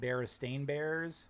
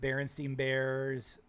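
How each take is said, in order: First: The name's last syllable sounds like 'stain'. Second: The name's last syllable sounds like 'steen'. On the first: This is the name's actual form. "with an A N" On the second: This is how many people remember the name. "with an E N"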